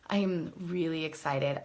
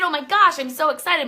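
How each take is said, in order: First: It is said slowly in a flat voice. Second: It is said fast in a high voice.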